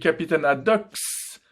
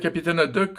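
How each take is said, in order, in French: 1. Le nom se termine par un son s ajouté. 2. Le nom se termine par un simple son k. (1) "j'ai tendance à rajouter un S à la fin" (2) "J'ai prononcé juste cette fois"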